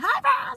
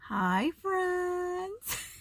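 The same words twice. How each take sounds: First: It is said loudly. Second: It is said softly.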